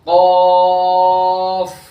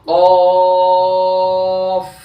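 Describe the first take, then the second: The two takes are said the same way.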